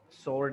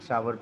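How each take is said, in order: First: The word has a plain 'or' vowel, like 'sore'. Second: The word has an 'ow' vowel, like 'power'. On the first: The speaker calls it wrong. "सोर नहीं है ये word" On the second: The speaker calls it right. "सावर पढ़ते हैं इसको"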